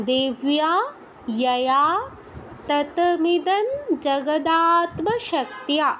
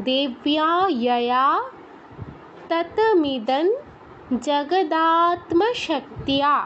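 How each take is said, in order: No difference in how they are said.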